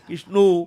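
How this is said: The name ends in an o vowel, Bengali style. "बांग्ला में कहेंगे"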